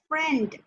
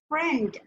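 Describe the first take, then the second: Both takes have the same delivery.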